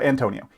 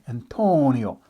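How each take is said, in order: First: It is said in a plain, unmarked way. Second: It is said with an exaggerated Italian accent.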